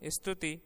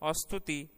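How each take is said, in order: First: The word starts directly with the st cluster. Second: A short a vowel is added before the st.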